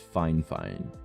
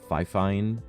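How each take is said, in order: First: The first syllable sounds like fine. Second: The first syllable sounds like fi. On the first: The speaker calls it right. "It's it's Fine Fine" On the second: The speaker calls it wrong. "or Fi Fine"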